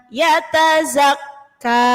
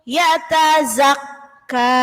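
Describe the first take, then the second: No difference in how they are said.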